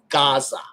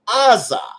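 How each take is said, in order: First: The word begins with a g sound. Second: The word begins with a vowel sound. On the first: The old initial sound is kept. "It retains the Gaian pronunciation of Gaza" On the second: The initial letter is read as silent. "It should be pronounced Aza"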